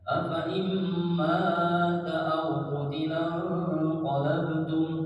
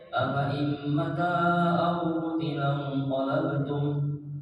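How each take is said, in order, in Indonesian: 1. Vokal dalam ma diucapkan panjang. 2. Vokal dalam ma diucapkan pendek. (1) "amanya itu dibaca panjang" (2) "kalau dibaca amanya pendek"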